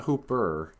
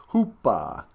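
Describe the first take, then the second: First: "Hooper" with a clearly sounded final R; standard R ending. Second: "Hoopa" with the final R dropped; New York accent. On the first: Showing how he didn't say it, "Hooper" ending in R. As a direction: say "Hooper" with a full American R. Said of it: "Not Hooper". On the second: Demonstrating a New York accent, "Hoopa" without the R. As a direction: say "Hoopa" New York style, ending in an open ah. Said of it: "Eastern accent in New York". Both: Shown as a demonstration.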